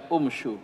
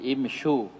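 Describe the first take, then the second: First: The word begins with a u vowel. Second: The word begins with an i vowel. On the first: The speaker calls it wrong. "bukan umshu" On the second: The speaker calls it right. "Jadi imshu"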